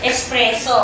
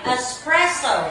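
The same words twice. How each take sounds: First: "Espresso" with pure vowels, "es-PRE-so"; misreading. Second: "espresso" as "us-PRESS-oh"; weak first vowel, gliding final oh in "espresso"; correct reading. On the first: Teacher echoing pupils before correcting, "Espresso" said "es-pre-so". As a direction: read "Espresso" as spelt, opening on eh. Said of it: "Tamang basa dito ay espresso". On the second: Teacher modeling the right reading, "espresso" said "us-press-oh". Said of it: "Tamang basa dito ay". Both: Shown as a demonstration.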